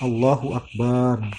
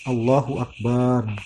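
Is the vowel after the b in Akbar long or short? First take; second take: long; long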